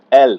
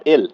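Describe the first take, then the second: First: "এল" with an open e and smooth l. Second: "এল" in everyday Bengali, closer e and plain l; wrong L. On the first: Teacher models letter L for students, smooth "এল". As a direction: glide smoothly into the l of "এল". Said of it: "একটু মসৃণ করে বলতে হবে". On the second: Teacher shows the mistaken L, unsmoothed "এল". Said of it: "not এল". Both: Shown as a demonstration.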